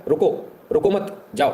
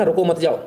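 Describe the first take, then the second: First: Slow "रुको मत", clear break, then "जाओ"; shifted comma pause. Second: "रुको मत जाओ" said in one go, no break; run-together phrasing. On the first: Teacher showing how one comma flips meaning, pause before "जाओ". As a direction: split it after "मत", setting "जाओ" apart, higher and slower. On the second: Teacher showing the comma game, "रुको मत जाओ" unbroken. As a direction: run "रुको मत जाओ" straight through without a pause. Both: Shown as a demonstration. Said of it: "एक comma में तो खेल".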